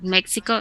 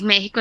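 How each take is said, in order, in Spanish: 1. Se pronuncia con sonidos ingleses. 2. Se pronuncia con sonidos españoles. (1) "es México" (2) "No es México"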